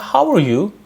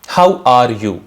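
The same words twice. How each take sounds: First: The r sound is barely heard. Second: The r sound is clearly pronounced. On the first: The speaker calls it right. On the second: The speaker calls it wrong.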